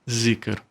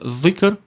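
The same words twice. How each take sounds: First: The first sound is a Portuguese z. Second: The first sound is an Arabic consonant. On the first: This is the adapted everyday pronunciation. "nós dizemos zikr" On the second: This is the original pronunciation. "Na verdade se pronuncia zikr, mas como é uma letra que não existe no, por, no português"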